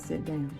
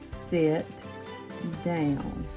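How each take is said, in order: First: It is said without a firm, stern tone. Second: It is said in a firm, stern voice.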